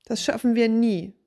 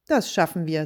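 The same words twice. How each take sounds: First: A tired, panting sigh of defeat; out of breath from scrubbing, giving up; puffing despair. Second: Low, steady and confident; the helper calmly encouraging the worn-out man; calm reassurance. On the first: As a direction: gasp it out, worn down. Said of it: "schnaufte der Mann". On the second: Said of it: "sagte der andere". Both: A narrator's reading.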